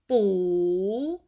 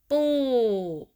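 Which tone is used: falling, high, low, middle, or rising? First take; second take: rising; falling. First: The pitch rises across the syllable. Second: The pitch falls across the syllable. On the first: "rising tone" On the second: "falling tone"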